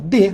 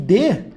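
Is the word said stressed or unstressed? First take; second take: unstressed; stressed. First: The word is said weak and unstressed. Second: The word is said strong and stressed. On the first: It is the preposition. "monossílabo átono, fraquinho" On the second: It is the verb. "eu tenho verbo"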